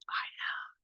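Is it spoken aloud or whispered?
whispered. It is whispered without full voice.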